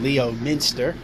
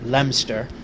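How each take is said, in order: First: The name is sounded out syllable by syllable. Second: The name is said in the British way. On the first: It is said this way to provoke corrections. "I just love saying it just to hear people tell me how to properly pronounce Leominster" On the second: This is how the British town's name is said. "the British, they call their little hamlet of the same name Leominster"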